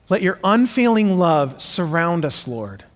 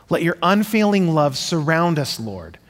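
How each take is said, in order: Both takes have the same delivery.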